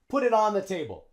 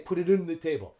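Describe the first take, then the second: First: 'On' has a short O vowel. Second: 'On' is reduced to a schwa. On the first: The speaker calls it right. "We use the short O sound" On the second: The speaker calls it wrong. "But we don't use schwa. We don't say"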